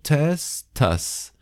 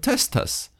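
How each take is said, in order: First: It is said slowly. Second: It is said quickly.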